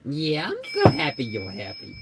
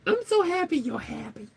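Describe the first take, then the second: First: Said in the usual way. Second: Put-on very high cooing baby voice; baby talk to pet. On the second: Cooing to her happy pet, very high. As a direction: coo it to the pet. Baby voice then plain repeat.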